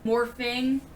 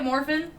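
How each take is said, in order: First: The word ends with an 'ng' sound. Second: The word ends with a plain 'n' sound. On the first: "Morphing, like morphing into" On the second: "That's how you say it, morphin. ... we don't need the G at the end"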